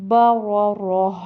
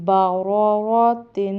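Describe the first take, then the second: First: با را راہ ending in an audible breath of h, louder; pausal h ending. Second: با را را تن ending in a held nasal "tin"; full tanween ending on با را را تن; joined reading. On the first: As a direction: replace the "tin" with a clear h in با را راہ. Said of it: "ہا کی آواز آئے گی". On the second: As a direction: sound the final t and n of با را را تن. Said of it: "تو وہ وقف میں ہا بن جاتی". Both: Shown as a demonstration.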